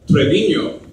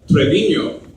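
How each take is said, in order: First: The n is said as an ny sound. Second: The n is said as an ny sound.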